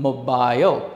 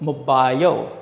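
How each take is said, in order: Both takes have the same delivery.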